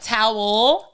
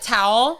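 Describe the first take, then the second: First: The word is pronounced fully, with every sound. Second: The word is clipped short, not fully pronounced. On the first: This is the standard way to say it. "instead of like towel" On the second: This is how Californians say it. "we cut off words like really short. Like we say like towel"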